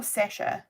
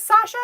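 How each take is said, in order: First: Sasha with a short front vowel, SESH-a; second pronunciation of Sasha. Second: Sasha with a long open "ah", SAH-sha; first pronunciation of Sasha. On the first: Asking a viewer about the name, Sasha said SESH-a. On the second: Asking a viewer about the name, Sasha said SAH-sha. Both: Shown as a demonstration. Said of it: "is it Sasha or Sasha".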